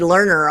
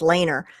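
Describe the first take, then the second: First: The first vowel sounds like the one in 'learn'. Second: The first vowel sounds like the one in 'lane'. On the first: This is how other people say the name. The speaker calls it wrong. "people call me Learner all the time" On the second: This is the name's proper pronunciation. The speaker calls it right. "and it's Laner"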